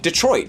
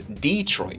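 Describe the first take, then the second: First: It is said the way outsiders say it. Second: It is said the way locals say it. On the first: The speaker is not from there. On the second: The speaker is from there.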